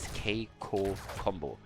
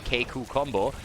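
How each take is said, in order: First: The name ends with an 'oh' vowel sound. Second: The name ends with an 'oo' vowel sound. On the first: The speaker calls it right. "according to recent information, it is Keiko combo" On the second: The speaker calls it wrong. "there's always a U at the end when I try to pronounce it in the heat of the moment"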